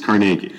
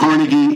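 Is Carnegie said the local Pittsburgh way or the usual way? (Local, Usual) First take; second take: Local; Usual. First: It is said the way locals say it. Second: It is said the way most outsiders say it. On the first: This is how people from the city say it. "pronounced the exact opposite" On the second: This is how the rest of the world says it. "however you think it's pronounced"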